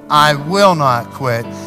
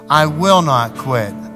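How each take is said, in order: The two takes are said the same way.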